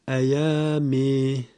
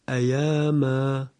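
First: The final vowel is tilted toward e. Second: The final vowel is an open long a.

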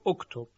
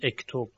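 First: The first vowel is the 'u' vowel. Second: The first vowel is not the 'u' vowel. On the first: The speaker calls it right. "ما اینو ضمه بهش میدیم، ... حتما میگوییم اکتب" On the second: The speaker calls it wrong. "نمیتونیم بگیم اکتب"

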